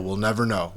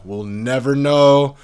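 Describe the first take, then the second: First: Said in the usual way. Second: Higher, much louder and slow; slow loud insistent We'll never know; emphatic repeat. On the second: Shown as a demonstration.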